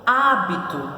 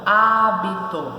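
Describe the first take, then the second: First: Said in the usual way. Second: Hábito slowly, há, bi, to; split into syllables. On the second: Shown as a demonstration. Teacher separating the word for the class, hábito in slow syllables. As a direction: stretch hábito apart syllable by syllable.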